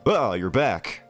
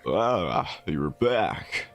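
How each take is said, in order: First: It is said in a startled, alarmed way. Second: It is said in a calm, ordinary way.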